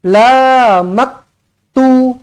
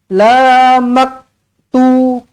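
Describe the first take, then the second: The two takes are said the same way.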